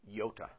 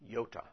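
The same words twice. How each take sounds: No difference in how they are said.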